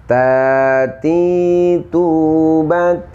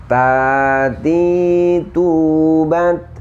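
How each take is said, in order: The two takes are said the same way.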